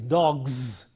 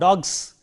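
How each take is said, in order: First: The word ends with a voiced z sound. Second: The word ends with a voiceless s sound. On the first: The speaker calls it right. "but it is dogs. The voicing should be there" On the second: The speaker calls it wrong. "It is not s. It is not dogs"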